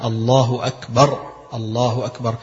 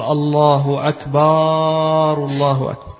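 First: أكبر with a short a, never stretched; الله أكبر said correctly, the a in أكبر short; correct short form. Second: أكبر stretched into أكبار, the second a held very long; الله أكبار, the a in أكبر drawn out far too long; wrong long vowel. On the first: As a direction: say أكبر crisply, the a kept short. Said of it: "يبقى هنا". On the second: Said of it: "لو إنه يقول". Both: Shown as a demonstration.

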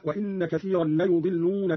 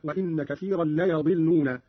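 First: Said in the usual way. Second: ليضلون with a, not u, after y; fatha on ya. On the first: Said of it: "قرأ قالون بفتح الياء". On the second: Shown as a demonstration. Teacher shows Qalun's reading, ليضلون pronounced la-yadilluna. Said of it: "قرأ قالون بفتح الياء هكذا".

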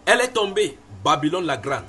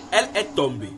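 First: Crying out. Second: Said in the usual way. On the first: A narrator's reading. Preacher voicing the angel's cry over Babylon, proclaiming. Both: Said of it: "Il cria d'une voix forte".

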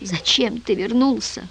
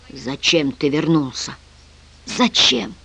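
First: Slow, soft, despairing question; weak, hopeless lament. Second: Slow, soft, anguished question; quiet, hurt lament; pained. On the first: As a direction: plead it in despair, drawn out. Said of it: "в отчаянии повторял Мирон Антиохович". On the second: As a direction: ask it with pain, drawn out. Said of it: "с болью воскликнул тот". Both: A narrator's reading.

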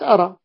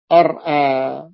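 First: أرى as arā, no glottal stop after the r; hamza dropped. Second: أرأى split as ar-ā, with the second hamza sounded; original full form. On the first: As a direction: run the r straight into the vowel in أرى. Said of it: "فأصبحت أرى". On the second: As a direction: hold the r in أرأى, then a glottal catch into long ā. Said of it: "المفروض يقول أرأى". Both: Shown as a demonstration.

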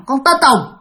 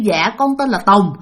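First: Blunt and short, a bit sharper, name only; curt answer. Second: Polite, even and gentle, with a respectful "Dạ"; polite answer. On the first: Narrator showing the rude way to answer, curt and blunt. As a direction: drop the politeness, answer curtly. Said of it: "Còn lần này nói rằng". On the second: Narrator showing the polite way to answer, gently respectful. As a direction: answer politely like a proper child. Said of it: "Thí dụ như". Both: Shown as a demonstration.

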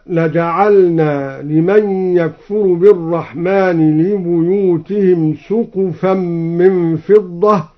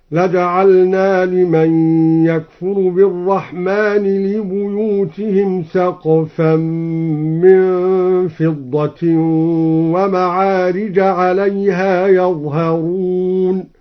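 First: Said in the usual way. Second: Slow tartil, سقفا said "saqfan" with a and vowelless q; singular-form reading. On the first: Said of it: "قوله تعالى". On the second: Shown as a demonstration. Teacher demonstrating al-Duri's singular, سقفا chanted slowly as "saqfan". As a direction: chant with long holds, سقفا as "saq-fan". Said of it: "قرأ الدوري بفتح السين وسكون القاف".

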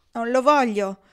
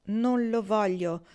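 First: Blurted, clearly louder refusal; loud exclamation. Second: Slow, subdued repeat through a tear; quiet tearful repeat. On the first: Kendra refusing the gold from Jean, a loud blurted refusal. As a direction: push it out loud without thinking. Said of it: "esclamò lei senza riflettere". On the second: Kendra refusing Pocket's gold again, slow and teary. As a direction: say it again slowly, holding back tears. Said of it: "ripeté". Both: Acted.

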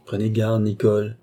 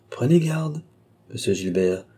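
First: Measured echo of a threat; composed counter-warning. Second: Menacing. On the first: Young man turning the maid's threat on her, composed. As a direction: hand the warning back to her, restrained. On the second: Maid threatening to expose the intruder, menacing. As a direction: warn him with open threat. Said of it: "d'un ton de menace". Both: A narrator's reading.

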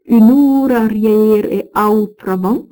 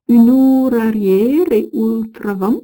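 First: "outravant" said as "ou-tra-vant", the fixed word; corrected reading. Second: "ultravant" said with "ul-", the misread word; first slipped reading. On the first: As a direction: correct "outravant" clearly after the slip. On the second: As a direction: stumble on "ultravant" before correcting. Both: Shown as a demonstration.

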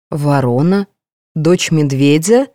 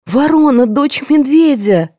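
First: Slow, questioning rise on each word; disbelieving echo; puzzled repeat. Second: High, slow, alarmed cry; crying out in fear; frightened exclamation. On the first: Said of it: "повторила я". (недоумённо, переспрашивая) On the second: (испуганный возглас) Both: A narrator's reading.

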